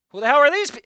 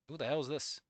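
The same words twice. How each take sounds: First: Higher and louder, cut off mid-word; hammed-up bewildered yell; mock outraged shout. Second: Said in the usual way. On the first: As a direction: yell it before breaking off laughing. Outburst at concept art.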